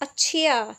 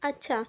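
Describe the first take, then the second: First: The word sounds indignant and challenging. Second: The word sounds calm and accepting. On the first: The listener is resented for daring to advise. "आप मुझे समझाओगे कि मुझे कैसे videos लानी है इतनी आपकी हिम्मत" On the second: The suggestion is understood and will be followed. "इसका मतलब है मैं समझ गई मैं आगे उसको अप्लाई करूँगी"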